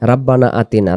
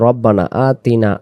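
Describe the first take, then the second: First: The first vowel is thin and light. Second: The first vowel is heavy and full. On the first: The speaker calls it wrong. "রাব্বানা না" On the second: The speaker calls it right. "এটা হবে রব্বানা আতিনা, আ এ গালিব"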